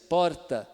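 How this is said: The r is pronounced as a real r. "o paulistano, que ele está usando o R mesmo"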